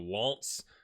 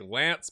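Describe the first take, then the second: First: The name is said with a French accent. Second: The name is said with an English accent. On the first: "but with a French accent, so Lance" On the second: "you say it like Lance"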